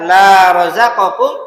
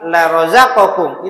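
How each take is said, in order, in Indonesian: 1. Vokal pada kata pertama panjang. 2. Vokal pada kata pertama pendek. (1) "di panjang dikit" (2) "Lam yang dibaca pendek"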